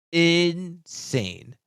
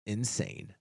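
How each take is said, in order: First: INSANE higher and drawn out on both syllables; emphatic INSANE. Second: Said in the usual way. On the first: Real, not acted. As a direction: stretch out "Insane" for emphasis, pitched up. Word repeated for emphasis.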